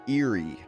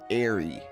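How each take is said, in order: First: The first syllable sounds like the word ear. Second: The first syllable does not sound like ear. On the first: "I'm pronouncing it Eerie because that looks like the word ear"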